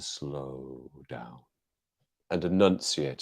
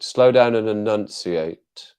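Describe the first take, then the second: First: Low, soft, drawn-out words; slowed down. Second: Very slow with DOWN punched; slow, enunciated. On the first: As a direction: stretch out SLOW DOWN, low and quiet. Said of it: "I used to have to slow down". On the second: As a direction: spell out each word slowly, ENUNCIATE fully articulated. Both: Shown as a demonstration.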